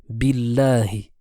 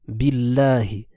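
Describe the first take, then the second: No difference in how they are said.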